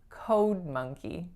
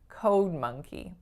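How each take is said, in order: No difference in how they are said.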